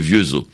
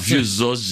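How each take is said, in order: First: The name ends on the vowel with no s. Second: The name ends with an audible s sound. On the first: This is how it is said in Haiti. "mais en Haïti, c'est Vieuxo" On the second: This is how people from outside Haiti say it. "Vieuxos, généralement, c'est qui ne sont pas d'Haïti"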